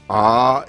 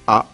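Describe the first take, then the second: First: The vowel is long with a glottal catch. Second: The vowel is short with a glottal catch. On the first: "on les allonge avec un tarava" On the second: "Ça donne"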